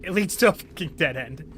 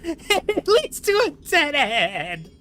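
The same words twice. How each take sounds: First: Said in the usual way. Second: Slow, laughing repeat, higher; laughing disbelief. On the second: Real, not acted. Gamer laughing at the dead end in disbelief.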